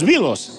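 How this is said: The name is said with English vowel sounds. "Debería decir los Beatles"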